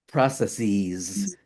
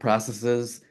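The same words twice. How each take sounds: First: The final syllable is a long 'seez' sound. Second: The final syllable is a short 'siz' sound. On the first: The speaker calls it wrong. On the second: The speaker calls it right.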